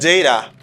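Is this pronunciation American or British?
British. It is said with a British pronunciation. "you are now talking to someone who is living in, in England"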